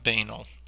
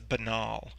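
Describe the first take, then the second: First: The stress is on the first syllable. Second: The stress is on the second syllable. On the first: The speaker calls it wrong. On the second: The speaker calls it right. "keep in mind that the stress is on the second syllable"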